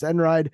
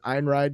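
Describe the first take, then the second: First: The name begins with a short 'en' sound. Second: The name is said the way it is spelled. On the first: The speaker calls it right. "but I guess it's Enride" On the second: The speaker calls it wrong. "I would pronounce it Einride because that's how it's spelled"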